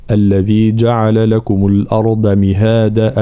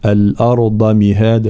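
First: الأرض with a light, thin ض and no full emphasis; deliberately wrong flat ḍād in الأرض; wrong unemphatic ḍād. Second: الأرض with a full, heavy, velarized ض; slow Quranic recitation of الأرض with heavy ḍād; correct emphatic ḍād. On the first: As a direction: say الأرض without giving the ض its heaviness. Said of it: "لا يعطيها حقها من التفخيم". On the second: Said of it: "لا، الأرض مهادا". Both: Shown as a demonstration.

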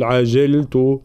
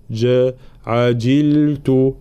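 First: عجلت wrongly said "ajeltu", kasra slackened to e; wrong jim vowel. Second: عجلت drawn out with a true i on the jim; correct clear kasra. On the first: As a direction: loosen the i of عجلت into an e. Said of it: "لا نقول عجلت". (عجلت بكسرة جيم غير محققة) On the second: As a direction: slowly model "ajiltu" in عجلت. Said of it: "لابد من تحقيق كسرة الجيم". (عجلت بكسرة جيم محققة) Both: Shown as a demonstration.

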